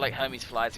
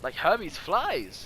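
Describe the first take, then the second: First: The phrase is said with weak emphasis. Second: The phrase is said with strong emphasis. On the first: The speaker calls it wrong. "I could have I could have emphasized that better" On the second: The speaker calls it right. "Yeah, there we go. That's the one"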